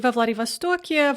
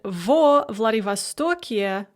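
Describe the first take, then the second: First: The vowel in the first word is reduced. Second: The vowel in the first word sounds full.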